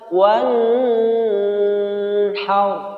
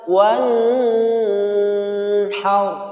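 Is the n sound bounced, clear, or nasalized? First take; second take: nasalized; nasalized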